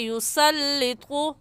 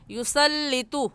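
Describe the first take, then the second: First: The t sound is heavy and thick. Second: The t sound is light and thin. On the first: The speaker calls it right. "मोटे हरूफ में से है, ऐसे कहेंगे" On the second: The speaker calls it wrong. "ये गलत है"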